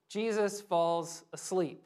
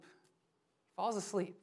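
First: Said in the usual way. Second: Softer, slow repeat of falls asleep; hushed, slow. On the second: Shown as a demonstration. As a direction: let it settle quietly and slowly.

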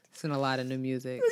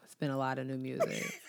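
First: Said in the usual way. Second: Saying it through a laugh; giggling while repeating it. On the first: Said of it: "You just keep saying that over and over". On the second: Shown as a demonstration. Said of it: "Just say it one more time".

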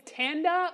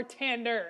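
First: "Tanda" ending in an open "ah"; "Tanda", dropping the r; r-less pronunciation. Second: "Tander" ending in a clear r; "Tander" with an American r; r-ful pronunciation. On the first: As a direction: say "Tanda" slowly with no final r. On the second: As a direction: say "Tander" slowly, sounding the final r. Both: Shown as a demonstration. Contrasts two pronunciations of surname.

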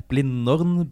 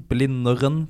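First: "Blindern" in two syllables, like Blinn-dorn; "Blindern" said short and clipped, two beats; Blindern two ways. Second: "Blindern" stretched to three syllables, Blin-de-ren, rising at the end; "Blindern" with an extra vowel, Blin-de-ren, ending up; Blindern two ways. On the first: [name] tries "Blindern" the short way, two syllables. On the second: [name] says "Blindern" his own dialect way, three syllables. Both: Shown as a demonstration. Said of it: "vanskelig å uttale med skarrer".

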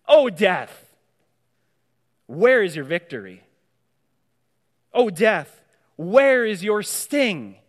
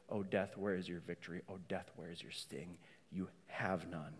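First: Loud, defiant taunt at death; proclaiming defiance. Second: Soft, low, settled defiance; hushed defiance. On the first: Preacher taunting death before the congregation in a loud, defiant voice. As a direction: fling the words at death, louder, the last line slow. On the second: Preacher closing the taunt to death in a soft, low voice. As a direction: say it quietly and surely to death, far softer. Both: Acted.

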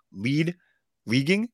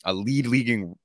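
First: "lead" and "leaguing" each pitched high and rising; puzzled questioning. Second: Said in the usual way. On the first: Real, not acted. Puzzled repeat of own slip.

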